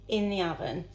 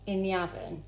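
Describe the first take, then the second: No difference in how they are said.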